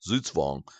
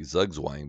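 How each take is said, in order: First: The word is said with a German pronunciation. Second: The word is said with an anglicized pronunciation. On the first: The speaker calls it right. "the word is German in origination, and the correct pronunciation of the word is Zugzwang" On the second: The speaker calls it wrong. "A lot of people say Zugzwang, but that's actually cor- incorrect"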